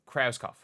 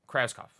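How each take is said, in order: Both takes have the same delivery.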